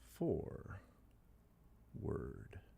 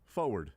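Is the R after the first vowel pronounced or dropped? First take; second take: pronounced; dropped. First: The first R is clearly pronounced. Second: The first R is dropped. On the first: The speaker is now careful with the word. "I will make a point to always pronounce the R" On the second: The speaker no longer cares about the word. "Bleep it"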